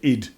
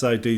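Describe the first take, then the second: First: The name is said as one short word. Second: The name is said as two separate letters. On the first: The speaker calls it wrong. "or as Americans would say, id. Sounds a very strange way of saying it" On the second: The speaker calls it right. "That's I D Soft"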